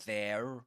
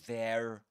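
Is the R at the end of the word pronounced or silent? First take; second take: pronounced; pronounced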